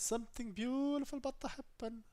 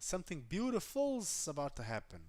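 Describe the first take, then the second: First: No 's' sound follows 'beautiful'. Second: An 's' sound follows 'beautiful'. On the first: The speaker calls it wrong. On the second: The speaker calls it right.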